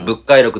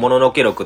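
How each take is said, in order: First: The first word is read as bukkai. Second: The first word is read as mononoke. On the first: This is the reading held correct originally. The speaker calls it right. "当時は物回録っていう方が正しくされてたんですよ" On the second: This is the reading commonly heard today. The speaker calls it wrong. "もののけ録とよく言われるんですよ"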